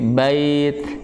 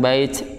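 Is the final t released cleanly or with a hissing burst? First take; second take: clean; hissed. First: The final t ends cleanly without a hissing burst. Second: The final t ends with an audible hissing burst. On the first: The speaker calls it right. "Tapi bait" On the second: The speaker calls it wrong. "hati-hati jangan bait"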